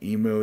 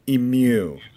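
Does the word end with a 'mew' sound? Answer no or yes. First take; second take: no; yes. First: The word ends without a 'mew' sound. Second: The word ends with a 'mew' sound. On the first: The speaker calls it wrong. "Am I pronouncing that wrong?" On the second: The speaker calls it right. "A little bit of mew in there"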